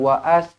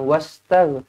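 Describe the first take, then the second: First: An extra a vowel comes after wa. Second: No extra vowel sound comes after wa. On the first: The speaker calls it wrong. "Kita tak baca dengan waas" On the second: The speaker calls it right. "kita baca terus je dengan wastag"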